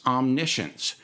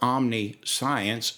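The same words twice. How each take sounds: First: The ending sounds like 'shence', without 'science'. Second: The ending sounds like the word 'science'. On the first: The speaker calls it right. "The right pronunciation" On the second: The speaker calls it wrong. "although it's spelled omniscience"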